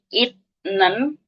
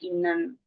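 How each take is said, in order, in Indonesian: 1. Bunyi t ada sebelum n. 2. Bunyi n ada sebelum n.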